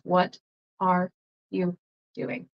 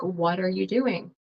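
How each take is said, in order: First: Each word is said separately without linking. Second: The words run together in a flowing link. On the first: "Instead of" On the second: "it's like connected ... it kind of flows"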